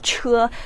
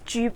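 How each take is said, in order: First: The syllable is said as 'che'. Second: The syllable is said as 'ju'. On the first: This is the usual modern reading. The speaker calls it wrong. "instead of Che" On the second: This is the old reading used in the kingdom's name. The speaker calls it right. "we pronounced it as Ju"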